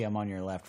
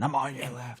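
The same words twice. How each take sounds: First: It sounds friendly and simply informative. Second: It sounds rude and aggressive. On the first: The rider is just letting them know. The speaker calls it right. "in a manner that just says that you just have to let them know" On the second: The rider is annoyed at them. The speaker calls it wrong. "rather than"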